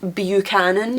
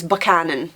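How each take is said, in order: First: The first syllable does not sound like buck. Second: The first syllable sounds like buck. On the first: The speaker calls it wrong. "lots of people will pronounce it Buchanan, which is wrong" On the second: The speaker calls it right. "It's Buchanan"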